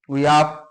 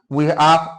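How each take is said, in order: No difference in how they are said.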